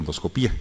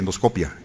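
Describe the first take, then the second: First: The stress falls on the syllable pi. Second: The stress falls on the syllable co. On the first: It marks someone trained at one particular hospital. The speaker calls it wrong. "yo soy muy necio y digo endoscopía" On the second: It is the standard, educated way to say it. The speaker calls it right. "es la forma correcta de hablar"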